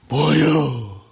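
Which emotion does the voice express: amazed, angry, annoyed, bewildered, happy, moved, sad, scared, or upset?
annoyed. The voice sounds annoyed. "짜증날 때"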